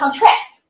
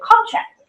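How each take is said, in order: First: The stress is on the second syllable. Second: The stress is on the first syllable. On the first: It is a verb. "It's a verb" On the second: It is a noun. "the stress is on the first syllable. So we have contract as a noun"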